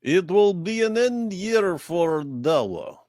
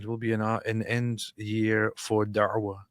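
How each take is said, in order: First: Slow, high Russian accent. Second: Said in the usual way. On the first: Shown as a demonstration. Co-host performing on request, Russian accent. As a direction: put on a drawn-out Russian accent. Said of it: "can you do the Russian accent?". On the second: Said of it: "can you do the Russian accent".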